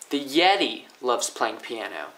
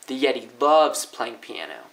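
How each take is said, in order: First: The stress is on Yeti. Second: The stress is on loves.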